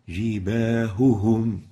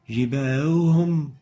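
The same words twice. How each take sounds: First: The two h sounds are clearly separated. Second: The two h sounds blur into one. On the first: The speaker calls it right. "make sure to emphasize upon the ha articulation point" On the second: The speaker calls it wrong. "That's not clear. The two ha are not clearly identified from each other"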